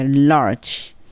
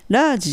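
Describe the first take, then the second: First: It is said with an audible r sound. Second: It is said without an r sound. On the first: The speaker calls it right. "R を聞かせてlarge" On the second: The speaker calls it wrong. "ラージじゃなくて"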